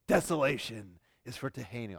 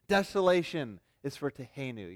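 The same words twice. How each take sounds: First: It is read in a menacing, evil-sounding voice. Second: It is read in a plain, ordinary voice.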